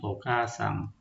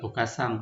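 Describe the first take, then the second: First: The middle vowel is held long. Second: The middle vowel is short and clipped. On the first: The speaker calls it right. "Itu yang betulnya" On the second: The speaker calls it wrong. "Ini bukan okasang"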